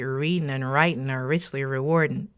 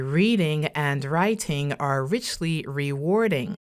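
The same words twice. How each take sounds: First: The -ing endings are mumbled or dropped. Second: The -ing endings are fully pronounced. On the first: The speaker calls it wrong. "Do not say" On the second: The speaker calls it right. "You need to say ... which means you have to open your mouth a bit more"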